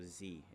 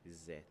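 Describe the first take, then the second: First: The letter is said the American way. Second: The letter is said the non-American way.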